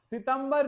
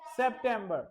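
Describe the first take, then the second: First: It is said as the Hindi-style 'Sitambar'. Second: It is said as the English-style 'September'. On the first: The speaker calls it wrong. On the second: The speaker calls it right.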